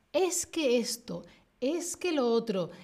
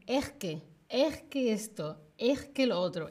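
First: Said in the usual way. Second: "Es que" a la madrileña, la s aspirada como jota: "ejque"; acento madrileño. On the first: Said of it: "en vez de decir". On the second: Shown as a demonstration. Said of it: "Ese es el acento que tienen". (acento de Madrid, "es que" con jota)

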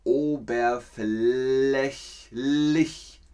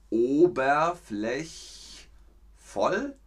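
First: Oberflächlich very slowly, every syllable stretched; right answer. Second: Oberflächvoll very slowly, letter-clear; wrong option. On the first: (oberflächlich sehr langsam gedehnt) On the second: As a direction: drag out oberflächvoll as a quiz choice. (oberflächvoll sehr langsam gedehnt) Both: Shown as a demonstration. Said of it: "Also ist richtig".

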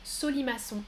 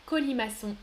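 First: Solimaçon, starting with S instead of K; wrong S sound. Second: Said in the usual way. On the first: Shown as a demonstration. (Solimaçon prononcé avec un S au début) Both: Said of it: "Je prononce trois, euh, sons différents".

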